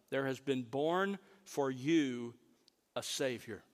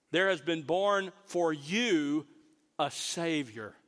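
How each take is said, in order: First: Said in the usual way. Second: Slow, with "you" pressed hard and drawn out; slow down and land heavily on "you"; stress on you. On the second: Shown as a demonstration. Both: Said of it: "is very emphatic".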